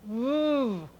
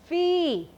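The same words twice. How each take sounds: First: It is said as a short bare consonant sound. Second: It is said as the full letter name 'vee'. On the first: "The sound is V" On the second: "That is the name of the letter"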